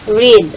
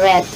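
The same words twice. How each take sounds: First: The vowel is long, like in 'reed'. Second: The vowel is short, like in 'red'. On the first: It is the present tense. "Present tense is read" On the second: It is the past tense. "Ang past tense naman niya is uh, pag binasa mo siya, read"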